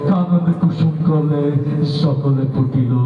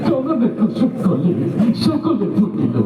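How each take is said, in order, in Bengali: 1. এটা কর্কশ, ভয়ংকর গলায় আবৃত্তি করা হয়েছে। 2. এটা কান্নাভরা, ফোঁপানো গলায় আবৃত্তি করা হয়েছে। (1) "তোরটা তো আরো বেশি ভয়ঙ্কর শোনা গেল" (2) "কান্দতে কান্দতে"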